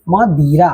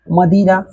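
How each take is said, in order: First: मदिरा split as म, then दीरा; म, then दीरा together with a lengthened ई; stress on long I. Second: Said in the usual way. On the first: Shown as a demonstration. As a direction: lean on the ई sound in मदिरा. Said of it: "दीरा एक साथ आ रहा है लेकिन ई पे जोर पड़ रहा है". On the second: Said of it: "ई पे जोर पड़ रहा है".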